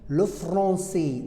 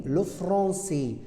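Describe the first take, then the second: The two takes are said the same way.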